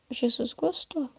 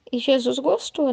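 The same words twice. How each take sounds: First: Jesus gostou said softer and slower, savoured; soft, slow echo. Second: Said in the usual way. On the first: Shown as a demonstration. The preacher softly savours that Jesus was pleased. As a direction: repeat Jesus gostou quietly, slowly. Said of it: "said twice, softer". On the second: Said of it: "said twice".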